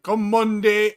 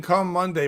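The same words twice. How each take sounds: First: Higher-pitched, put-on Jamaican accent; mock the title in a Jamaican lilt. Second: Said in the usual way. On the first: Telling the co-host what it sounded like, Jamaican accent. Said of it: "it sounded Jamaican". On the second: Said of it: "When you were saying".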